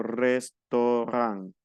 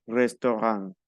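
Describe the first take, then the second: First: Restaurant slowly broken into res-to-ran; syllable-by-syllable French. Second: Said in the usual way. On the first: Shown as a demonstration. Teacher shows AU said as O, slow broken "restaurant". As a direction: stretch each syllable of restaurant, nasal last vowel. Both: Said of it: "yo digo restaurant".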